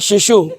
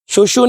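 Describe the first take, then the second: First: The first vowel is an 'i' sound. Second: The first vowel is a 'u' sound. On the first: The speaker calls it right. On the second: The speaker calls it wrong.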